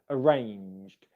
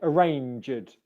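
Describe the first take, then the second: First: The ending is joined without an extra syllable. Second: The ending is said as an extra syllable. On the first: The speaker calls it right. "instead of" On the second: The speaker calls it wrong. "they were adding in a separate syllable uh, on the ed ending"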